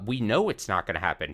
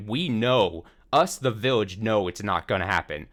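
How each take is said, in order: First: Said in the usual way. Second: Emphatic restatement with the weight on "We"; stress on WE. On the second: Retold or imitated. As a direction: lean on "We" and "us, the village". Restates, stressing who knows.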